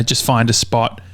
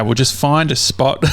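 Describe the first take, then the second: First: Said in the usual way. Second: Lightly put-on Australian accent. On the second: Sheriff's officer advising the caller, mistakenly in an Australian accent. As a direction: let a little exaggerated Australian accent slip in. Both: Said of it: "he didn't have an accent, an Australian accent".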